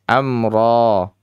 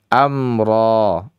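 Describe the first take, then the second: The two takes are said the same way.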